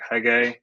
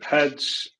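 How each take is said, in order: First: The name ends with a hard g sound. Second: The name ends with a soft j sound. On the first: The speaker calls it wrong. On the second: The speaker calls it right.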